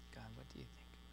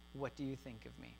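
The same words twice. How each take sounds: First: A much softer, lower, whispered prayer to God; hushed prayer. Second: Said in the usual way. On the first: Shown as a demonstration. Pastor leading the congregation to pray the question to God, hushed. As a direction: pray the question quietly, almost to yourself. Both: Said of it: "I want you to ask God".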